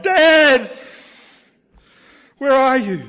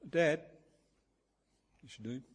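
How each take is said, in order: First: Loud, high anguished shout for Dad, acted out; anguished cry. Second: Put-on a child's small, soft call for Dad. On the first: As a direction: cry out like a lost child in anguish. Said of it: "in anguish, I cried". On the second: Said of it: "in a small voice".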